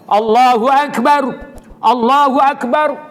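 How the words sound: Each phrase is said separately with pauses. This is the way for a sermon. "Kecuali nak baca khutbah, kena satu-satu"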